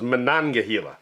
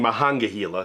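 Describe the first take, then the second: First: The second syllable begins with an N sound. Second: The second syllable begins with an H sound. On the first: The speaker calls it right. "but this is Monongahela" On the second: The speaker calls it wrong. "I've been saying it wrong"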